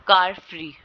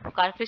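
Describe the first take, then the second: First: कार punched loud, free lighter; stress on car. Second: Said in the usual way. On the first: Shown as a demonstration. Teacher to students, demonstrating first-word stress on कार. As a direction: hit कार hard, let free fall away. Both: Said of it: "इसमें भी कार पे".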